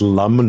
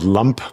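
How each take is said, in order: First: The word ends with an M sound. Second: The word ends with a P sound. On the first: The speaker calls it right. "It should be pronounced lum" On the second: The speaker calls it wrong. "not lump"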